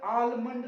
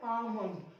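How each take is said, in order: First: आलमंड with the L sounded, "aal-mund"; mispronunciation with L. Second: आमंड as "aa-mund", no L sound; long "aa" straight into M in आमंड; correct silent L. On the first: Teacher showing what not to read, आलमंड with a sounded L. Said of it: "आलमंड नहीं पढ़ते". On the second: Teacher correcting the reading of almond, आमंड said without L. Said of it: "आलमंड नहीं पढ़ते, आमंड". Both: Shown as a demonstration.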